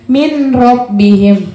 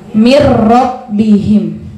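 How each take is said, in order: First: The n is pronounced separately before the r. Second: The n merges into the r without nasal hum. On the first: The speaker calls it wrong. "kita sering bacanya min robbihim, tidak" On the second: The speaker calls it right. "nunnya tidak terbaca, dia langsung masuk ke ro"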